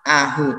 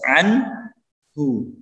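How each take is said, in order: First: The n sound is left out entirely. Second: The n sound is pronounced clearly before h. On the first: The speaker calls it wrong. "tidak boleh kita membacanya ... ataupun cuma ahu" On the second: The speaker calls it right. "jelas anhu"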